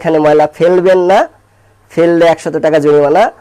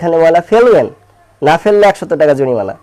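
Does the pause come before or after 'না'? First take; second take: after; before. First: The pause comes after 'না'. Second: The pause comes before 'না'.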